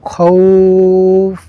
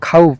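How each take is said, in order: First: The vowel is drawn out and held long. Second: The vowel is kept short, not held. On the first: The speaker calls it right. "এই খাউফ এখানে আমাদের টান দিতে হবে" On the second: The speaker calls it wrong. "কাউ খাউফ বলা যাবে না"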